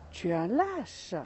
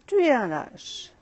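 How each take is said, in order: First: A hint of an angry yell; mild angry shout. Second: Echo reply. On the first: Angry boy insulting the echo, understated. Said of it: "Et il crie". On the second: Acted. Mountain echo answering the angry boy, louder. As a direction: echo throws the insult back, louder. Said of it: "la voix lui répond".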